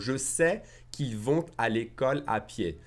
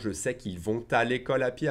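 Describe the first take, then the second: First: It is said slower, with the liaison sound. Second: It is said faster, without the liaison sound.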